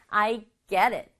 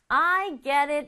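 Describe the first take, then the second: First: It is said in a neutral tone. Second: It is said in an annoyed tone.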